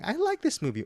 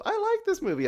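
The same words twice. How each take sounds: First: Parroting Bruce's parody back; lightly hammed-up echo; mock imitation. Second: Imitating the hosts in a mocking voice; mocking impression of the hosts; mock deep impression. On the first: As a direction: mimic the mocking voice. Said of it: "you copy me and Eric saying". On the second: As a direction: parody them saying they like it. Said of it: "My voice is not that deep".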